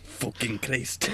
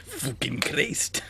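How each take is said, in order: First: Slow, quiet Scottish curse; Scottish accent. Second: Slow, laughing, whispered Scottish curse; a half-laughed Scottish swear; Scottish accent. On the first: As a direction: drag out a Scottish swear. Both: Acted. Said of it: "the only two words I can say in Scottish".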